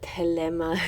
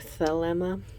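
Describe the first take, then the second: First: The word begins with a plain T sound. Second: The word begins with a TH sound. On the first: "I call it telema as a, a, a T" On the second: "instead of thelema"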